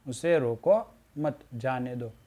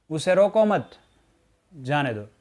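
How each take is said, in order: First: Slow "उसे रोको", pause, then "मत जाने दो"; pause before मत. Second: "उसे रोको मत" in one breath, then pause before "जाने दो"; pause after मत. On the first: Teacher showing the other punctuation, pause placed before "मत". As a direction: break after "रोको" so that "मत" goes with "जाने दो". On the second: Teacher reading a punctuation exercise, pause placed after "मत". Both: Shown as a demonstration. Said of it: "उचित विराम चिन्ह का प्रयोग".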